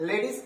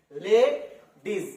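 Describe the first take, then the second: First: Said in the usual way. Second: লেডিস drawn out very slowly, split into লে and ডিস; very slow classroom spelling of লেডিস; slow syllable demo. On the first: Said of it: "দুটো syllable". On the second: Shown as a demonstration. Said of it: "এখানে ওয়াইটা হলো semi vowel".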